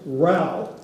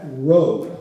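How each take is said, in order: First: The vowel rhymes with 'cow'. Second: The vowel rhymes with 'go'. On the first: It is named for fighting. The speaker calls it right. "It's Row, because it's named for fighting" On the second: It marks you as an out-of-towner. The speaker calls it wrong. "do not pronounce that"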